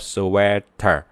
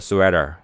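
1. 每个音都发得清楚、仔细。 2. 发音放松，像自然说话一样。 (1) "说得很清楚叫sweater" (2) "但是说话的时候就说sweater"

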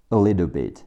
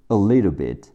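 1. little 里的 t 会变成闪音。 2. little 里的 t 会变成闪音。

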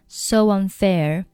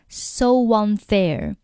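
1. 连接的w滑音很轻、很流畅。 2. 连接的w滑音发得很重、很清楚。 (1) "就很自然so unfair" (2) "你不需要把这个音发得非常清楚，你不需要说so unfair"

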